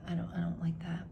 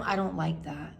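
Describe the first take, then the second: First: Fast whispered "I don't, I don't like that"; muttering her dislike to herself; whispered repeat. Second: Said in the usual way. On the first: Real, not acted. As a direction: breathe the repeat quickly under your breath.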